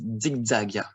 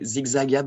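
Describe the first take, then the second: First: The Z starts with a D sound. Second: The Z is a plain buzzing Z sound. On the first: The speaker calls it right. "the best is" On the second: The speaker calls it wrong. "We could also say"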